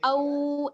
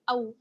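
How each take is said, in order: First: The vowel is drawn out long. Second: The vowel is said quickly and short. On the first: The speaker calls it wrong. "यहाँ पर हमें खींचना नहीं है, औ ऐसे नहीं" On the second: The speaker calls it right. "बल्कि जल्दी से पढ़ना है"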